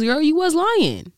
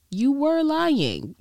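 First: Incredulous call-out. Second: Every word of "You were lying" drawn out slowly; slow, deliberate repeat. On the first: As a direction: call her out, half laughing. Gossiping friend calling out a lie. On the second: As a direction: spell out the verdict, slowly. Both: Real, not acted.

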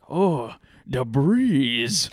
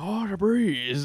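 First: Slow, drawn-out Asian accent imitation. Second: Higher, slow Asian accent impression. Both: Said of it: "he's strong Asian accent".

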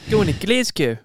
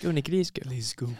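First: High, loud mock Kiwi accent; hammed-up Kiwi runner impression; George Beamish impression. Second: Mock Kiwi accent, trailing softer; understated put-on Kiwi accent; George Beamish impression. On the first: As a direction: call it out in a put-on New Zealand accent. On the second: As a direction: try the New Zealand accent more quietly. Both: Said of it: "do a George Beamish impression of".

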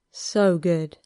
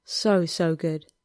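First: "So good" let out on an exhale; mild sated sigh on "So good"; exhaled. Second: "So, so good" drawn out slow and whimpering; lightly voiced lover's whimper on "So, so good". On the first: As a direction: breathe out "So good" in one sigh. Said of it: "Harry exhaled". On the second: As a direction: stretch "So, so good" like a soft whimper. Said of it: "he whimpered softly through his nose". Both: A narrator's reading.

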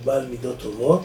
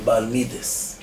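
First: Said in the usual way. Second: מידס ending in -es instead of -ot; Hasidic Ashkenazi pronunciation. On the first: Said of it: "שגור אצלנו בעולם התורה את הביטוי". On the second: Shown as a demonstration. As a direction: say מידס with a final s, not t. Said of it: "או בהברה החסידית אשכנזית".

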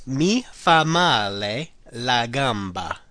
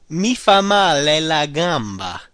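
First: Slow, deliberate repeat. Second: Slow, careful model phrase. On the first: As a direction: drag it out for learners. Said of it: "So it's". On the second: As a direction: lay it out for learners. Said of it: "The first one is". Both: Shown as a demonstration.

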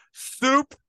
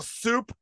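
First: Loud, high call across the store; sudden high, loud holler; yelling. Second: Higher-pitched imitated store call; imitating a cashier's yell; mock yell. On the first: Retold or imitated. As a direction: yell it out like a cashier. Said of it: "they yell". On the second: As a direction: call it out, half-shouted. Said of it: "hear them yell".

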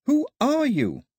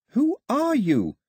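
First: Higher echoing reply. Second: Higher, slow questioning of the empty air; asking the air. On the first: The voice echoes Daphne's question back to her. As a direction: throw the question back like an echo. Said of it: "The voice came back like an echo". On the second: Daphne asks the empty air who speaks, slowly. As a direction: ask slowly into the emptiness. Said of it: "she asked the air". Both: A narrator's reading.

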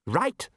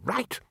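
First: Said in the usual way. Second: A higher, keen rising Right; new interest in his tone. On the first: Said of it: "change in his tone". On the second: Acted. Ridcully hearing about big fish, Right. turning eager. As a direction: let Right. turn eager. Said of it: "a small but significant change in his tone".

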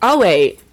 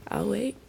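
First: Louder, firmer teacher's I'll wait; insist, the class must settle; stern teacher voice pressing the point. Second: Soft, pointed teacher's I'll wait; quietly firm classroom teacher. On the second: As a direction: wait them out like a patient teacher. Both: Shown as a demonstration. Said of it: "put on my teacher voice".

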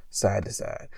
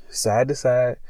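First: Side to side, dropped to a soft breathy whisper; fading whisper. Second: Said in the usual way. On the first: Shown as a demonstration. Telling the cohost about the stranger's bag, whispered trailing off. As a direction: let side to side trail off into a hush. Repeating the man's motion, fading.

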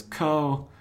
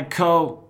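First: "Ko" as a puzzled question, raised pitch; tentative, questioning "Ko". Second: Loud, high "Ko", broken off mid-name; "Ko" declaimed as an interrupted name; cut-off "Ko". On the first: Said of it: "with a question mark at the end". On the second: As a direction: proclaim "Ko" grandly and stop short. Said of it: "he's cut off". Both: Retold or imitated.

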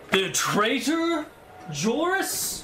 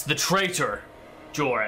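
First: "traitor" and "Joris" drawn out, each climbing high; incredulous question. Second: "the traitor, Joris" stated with a falling end; firm confirmation. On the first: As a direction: query "the traitor, Joris?" slowly with a steep rise. Knight questions the name in disbelief. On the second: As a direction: confirm "traitor", then let "Joris" fall. Knight confirms the name as statement. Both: Acted.

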